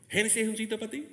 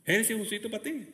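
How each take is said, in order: Both takes have the same delivery.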